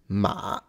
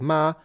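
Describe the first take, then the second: First: The pitch dips low, then rises again. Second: The pitch stays high and level.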